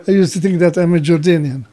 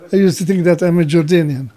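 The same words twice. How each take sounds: The two takes are said the same way.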